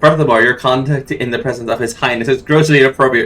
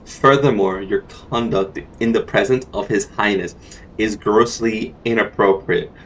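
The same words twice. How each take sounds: First: The line is read very quickly. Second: The line is read at a normal pace.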